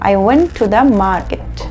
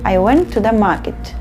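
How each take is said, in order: First: The word 'to' is said fully as 'too'. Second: The word 'to' is said fully as 'too'.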